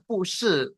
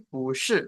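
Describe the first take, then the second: First: "pu shi" dengan pu nada keempat; fourth tone pu. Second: "bu shi" with bu rising second tone; tone sandhi bu. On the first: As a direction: ucapkan "pu shi" tanpa perubahan nada. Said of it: "bacanya bukan pu shi". ("pu shi" dibaca pu nada empat) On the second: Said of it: "tapi bu shi". ("bu shi" dengan bu naik nada kedua) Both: Shown as a demonstration.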